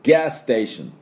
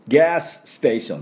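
First: The two s sounds merge into one. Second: The two s sounds are said separately. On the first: The speaker calls it right. "1 個で済ましてしまいます" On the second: The speaker calls it wrong. "ガスステーションじゃなくて"

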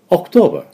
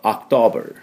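First: British accent with no final R sound. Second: American accent with a final R and open vowel. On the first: "イギリス人だと最後のR がないでしょうね" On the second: "アメリカ人だと"

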